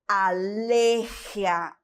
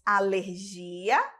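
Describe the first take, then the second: First: The stress is placed as in Spanish. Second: The stress is placed as in Portuguese. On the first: "aqui no espanhol" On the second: "no português"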